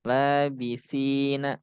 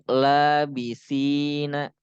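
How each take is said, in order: The two takes are said the same way.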